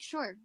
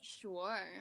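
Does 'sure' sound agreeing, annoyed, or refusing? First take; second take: agreeing; annoyed. First: It sounds like a genuine yes. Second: It sounds annoyed and dismissive.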